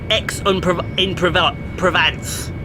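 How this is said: It is said with an English accent. The speaker calls it wrong. "as we would say it uh, over in the U K"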